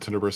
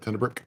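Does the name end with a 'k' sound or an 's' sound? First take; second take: s sound; k sound. First: The name ends with an 's' sound. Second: The name ends with a 'k' sound. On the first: "Some people uh, will will pronounce it Tenebris" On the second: "Some people pronounce it uh, Tenebrick"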